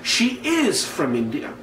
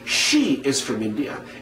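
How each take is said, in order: First: The stress falls on the word is. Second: The stress falls on the word she. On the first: Contrary to what you thought, she really is from India. "So when I have that is there" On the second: She, among several people, is the one from India. "indicating that there might have been a few people ... and she is the one that's from India"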